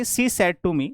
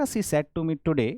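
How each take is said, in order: First: She said to me closed off, stopping at me; comma after me. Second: Slow She said to me today as one phrase; comma after today. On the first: Teacher showing comma meaning, phrase closes after me. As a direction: end the phrase on me, before today. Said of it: "अगर आप यहां पर लगा देते हो". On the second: Teacher showing other meaning, phrase closes after today. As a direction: keep today with said, closing after today. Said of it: "यहां पर comma लगा दिया". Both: Shown as a demonstration.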